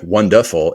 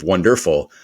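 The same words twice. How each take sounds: First: "wonderful" with its r dropped, like wunduhful; sloppily articulated "wonderful", r swallowed to uh; slurred wonderful. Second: Said in the usual way. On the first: Shown as a demonstration. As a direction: say "wonderful" loosely, losing the middle r. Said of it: "it sounds like wonderful instead of". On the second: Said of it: "instead of wonderful".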